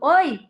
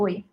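First: It is said in a warm, friendly tone. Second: It is said in a dry, curt tone.

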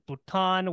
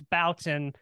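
First: The surname is given its original French pronunciation. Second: The surname is given an Americanized pronunciation. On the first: This is how the name was originally pronounced. "that is the original pronunciation" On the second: This is how the family actually says the name. "with us Americans, we like to, you know, make everything, you know, our own. So it's Bouton"

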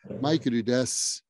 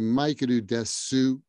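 First: The final u of desu is dropped. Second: The final u of desu is clearly pronounced. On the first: The speaker calls it right. "people say" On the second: The speaker calls it wrong. "They don't say maikuru desu, even though it's written with desu"

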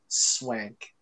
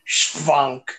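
First: The name begins with a plain 'sw' sound. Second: The name begins with an 'shw' sound. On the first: The speaker calls it right. "It's just swank" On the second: The speaker calls it wrong. "Not the German version"

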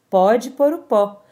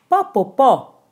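First: Each word is said fully and separately. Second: The words are squeezed together in a Minas Gerais accent. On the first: "Posso traduzir?" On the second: "É só a gente pensar no sotaque lá de Minas Gerais"

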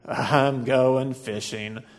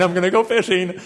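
First: It sounds sad and gloomy. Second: It sounds excited and eager.

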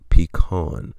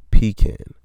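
First: The second syllable has a reduced 'uh' vowel. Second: The second syllable has a full 'a' vowel. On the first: The speaker calls it wrong. "not P-E-E-C-U-H-N" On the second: The speaker calls it right. "it is pecan, P-E-E-C-A-N"

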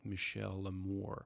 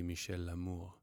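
First: It is said with an American accent. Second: It is said with a French accent.

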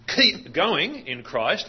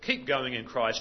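First: The stress falls on the words keep going. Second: The stress falls on the words in Christ. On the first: The focus is on continuing. "with an emphasis on the words keep going" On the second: The focus is on where one continues. "this time the emphasis is on the words in Christ"

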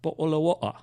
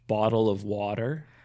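First: British accent, the T's not softened to D's. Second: North American accent, the T's soft like D's.

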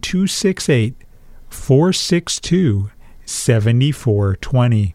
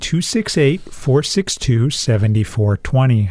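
First: The number is said slowly. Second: The number is said fast.

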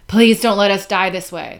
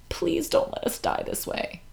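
First: It is said more plainly, with less sadness. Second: It is said in an overly sad, dramatic way.

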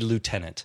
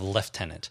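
First: It is pronounced the American way. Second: It is pronounced the British way. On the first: "we pronounce lieutenant like the Americans. Which would be lieutenant" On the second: "instead of lieutenant"

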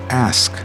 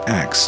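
First: The s sound comes before the k sound. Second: The k sound comes before the s sound. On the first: The speaker calls it right. "rather than saying ask" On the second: The speaker calls it wrong. "I had a lazy habit of saying the word axe"

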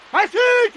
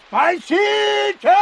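First: It is shouted more loudly. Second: It is shouted at a moderate volume.

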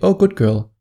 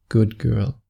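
First: It is said in a plain, casual voice. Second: It is said in a low, intimate voice.

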